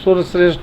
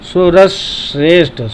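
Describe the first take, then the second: First: Sur runs straight into shreshth without s. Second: An extra s sound is held before shreshth. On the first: The speaker calls it wrong. "सुर श्रेष्ठ नहीं बोलेंगे" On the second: The speaker calls it right. "सुरस बोल करके वहीं पर जीभ को रोक करके श्रेष्ठ बोलेंगे"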